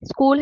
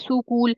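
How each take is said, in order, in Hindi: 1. s और k सीधे जुड़े हुए हैं। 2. s और k के बीच एक अतिरिक्त स्वर डाला जाता है। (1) "स्कूल है" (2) "बच्चा कहता है सुकूल"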